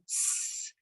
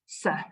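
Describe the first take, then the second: First: The consonant is held alone with no vowel. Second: The consonant is followed by a short vowel. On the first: The speaker calls it right. "using the pure sounds" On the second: The speaker calls it wrong. "and not s"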